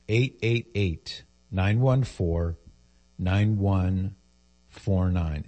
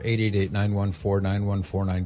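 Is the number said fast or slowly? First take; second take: slowly; fast. First: It is said slowly. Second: It is said fast.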